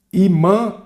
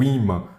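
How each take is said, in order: First: IMÃ said slowly as "i-MÃ", end stressed; stress shifted to last syllable. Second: Said in the usual way. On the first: Shown as a demonstration. Teacher shows the word missing its accent, end-stressed. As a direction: read "imã" leaning on MÃ. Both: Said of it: "imã faltou o acento".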